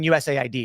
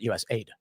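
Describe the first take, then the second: First: All five letters are spelled out separately. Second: The ending is said as the word aid. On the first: It names the agency itself. The speaker calls it right. "you mean U S A I D" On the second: It can sound like general foreign aid. The speaker calls it wrong. "not U S A I D"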